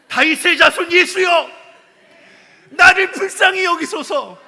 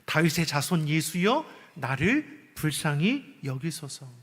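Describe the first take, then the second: First: It is shouted loudly. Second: It is said meekly and quietly.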